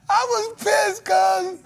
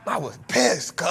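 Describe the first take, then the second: First: Mock outraged shout. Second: Said in the usual way. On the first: Real, not acted. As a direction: blow it up into a mock yell. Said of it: "same words said plainly first". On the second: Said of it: "repeated louder right after".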